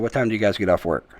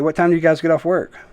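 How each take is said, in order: First: The pitch falls at the end of the question. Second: The pitch rises at the end of the question. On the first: "I go down. It's the opposite" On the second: "You go up at the end of the sentence"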